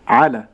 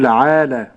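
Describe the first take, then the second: First: The vowels after ayn and lam are kept short. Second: The vowels after ayn and lam are drawn out. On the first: The speaker calls it right. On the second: The speaker calls it wrong.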